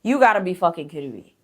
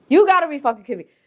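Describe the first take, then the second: First: Said in the usual way. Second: Higher, louder, fast outrage; exasperated outburst. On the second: Real, not acted. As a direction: snap it out fast. Repeated outburst, second louder.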